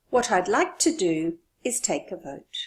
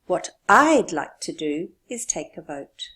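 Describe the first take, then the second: First: What I'd like to do punched; stress on what I'd like to do. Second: What I'd like to do punched, louder; stress on what I'd like to do. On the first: Teacher stresses what I'd like to do. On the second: Teacher repeats it, louder on what I'd like to do. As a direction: push the words what I'd like to do. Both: Shown as a demonstration. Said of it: "This is to stress what I want to do".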